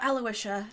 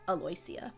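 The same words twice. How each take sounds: First: It is said the conventional way, like Aloysius. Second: It is said phonetically, following the spelling. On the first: The speaker calls it wrong. "That's how that name would be pronounced in the normal world" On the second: The speaker calls it right. "hers is actually pronounced more phonetically"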